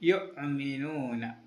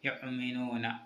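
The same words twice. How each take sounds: First: The first syllable runs on without a glottal stop. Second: A glottal stop follows the first syllable. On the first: The speaker calls it wrong. "യുഅ്മിനൂന എന്ന് ഓതരുത്" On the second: The speaker calls it right. "വാവിൻ്റെ മേലെ ഹംസയാണുള്ളത്"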